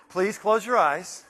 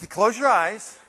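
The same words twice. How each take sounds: First: Slow, gently insistent please; slowed, coaxing request. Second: Said in the usual way. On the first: Shown as a demonstration. Speaker to audience, slow coaxing. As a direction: draw it out to settle the room.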